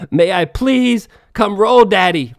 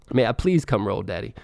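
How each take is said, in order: First: Loud, slow, drawn-out mock plea; mock begging. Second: Said in the usual way. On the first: Begging the rival coach to let him roll, hammed-up loud plea. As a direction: beg him loudly to let you roll. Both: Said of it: "Begging this bitch".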